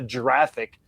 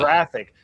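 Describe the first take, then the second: First: The word starts with a J sound. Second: The word starts with a hard G sound. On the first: The speaker calls it wrong. "not a J sound. It's not a giraffic" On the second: The speaker calls it right. "which means it's a G sound"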